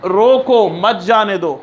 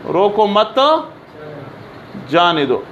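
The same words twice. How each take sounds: First: Slow "रोको", break, then "मत जाने दो"; pause after रोको. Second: "रोको मत", long pause, lower "जाने दो"; pause after मत. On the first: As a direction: join "मत" to "जाने दो", apart from "रोको". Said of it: "इधर लगाया". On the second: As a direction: keep "रोको मत" together, then drop on "जाने दो". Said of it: "अभी अगर आपने इधर फुल स्टॉप लगाया". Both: Shown as a demonstration.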